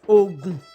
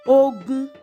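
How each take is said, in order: First: The tones are low then low. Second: The tones are mid then mid. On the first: It names a state in Nigeria. "Dodo, Ogun. Ogun is a state" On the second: It means war. "Rere, Rere. Ogun is a war"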